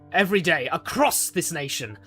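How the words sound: The word across is stressed.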